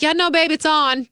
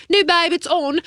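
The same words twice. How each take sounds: First: Said in the usual way. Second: Mock British accent, higher; exaggerated British vowels on a casual quote; Prince Harry. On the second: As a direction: put on a playful British accent. Redoes Prince Harry's line in his accent.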